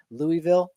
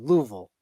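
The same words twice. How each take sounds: First: Louisville said as LOO-ee-vil; standard pronunciation. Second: Louisville squashed to LOO-vul; local pronunciation. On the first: Podcaster contrasting ways of pronouncing Louisville, saying it LOO-ee-vil. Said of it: "a whole thing about him pronouncing". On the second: Podcaster showing how locals say it, Louisville as LOO-vul. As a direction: say Louisville the Kentucky way, two syllables, LOO-vul. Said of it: "That's what they say down there". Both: Shown as a demonstration.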